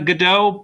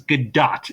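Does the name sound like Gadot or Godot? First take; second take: Godot; Gadot. First: The name is said like the play's Godot. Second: The name is said as Gadot. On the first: This is the common but mistaken reading of the name. The speaker calls it wrong. "it seems like it should be pronounced uh" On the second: This is how the name is actually pronounced. The speaker calls it right. "but it is Gadot"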